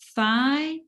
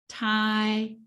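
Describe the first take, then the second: First: It begins with a soft th sound. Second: It begins with a hard t sound. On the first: The speaker calls it right. "one correct one" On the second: The speaker calls it wrong. "two wrong"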